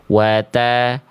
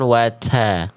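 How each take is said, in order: First: It is said plainly with normal breath. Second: It is said with exaggerated, heavy breath. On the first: The speaker calls it right. "harusnya jangan berlebihan, biasa aja" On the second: The speaker calls it wrong. "bukan wata"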